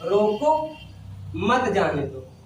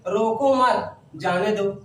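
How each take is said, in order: First: There is a pause after 'roko'. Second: There is a pause after 'mat'.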